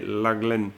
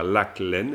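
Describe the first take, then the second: First: The middle consonant is a soft, linked g. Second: The middle consonant is a hard, separated k. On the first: The speaker calls it right. "mais laglen" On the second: The speaker calls it wrong. "on n'irait pas jusqu'à dire lac-laine"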